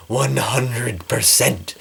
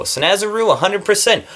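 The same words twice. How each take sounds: First: Slow, breathy whisper; whispered echo. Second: High, eager emphasis; excited endorsement. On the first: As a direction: whisper it slowly like a secret. Whispered echo of her endorsement. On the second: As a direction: sell it with a bright high push. Raving about favorite makeup. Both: Real, not acted.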